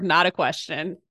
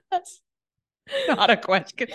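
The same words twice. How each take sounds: First: Said in the usual way. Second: Laughing. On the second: Real, not acted. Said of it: "Confirmed, not a question".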